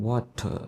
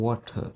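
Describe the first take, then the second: Both takes have the same delivery.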